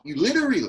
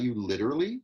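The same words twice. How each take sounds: First: Loud, high-pitched imitation on "literally"; going up. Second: Taken down. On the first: Director imitates how the actor's line went up, high. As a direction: mimic it with "literally" shooting up high. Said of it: "see how you went up?". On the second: Shown as a demonstration. Director models the line for actor, brought down. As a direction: say "literally" unhurried, without shooting up. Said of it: "Slow it down".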